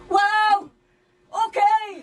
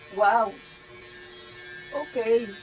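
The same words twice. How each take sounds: First: It is said in a happy tone. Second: It is said in a sad tone.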